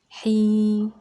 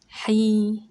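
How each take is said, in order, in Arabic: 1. الحركة ممدودة وطويلة. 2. الحركة ممدودة وطويلة.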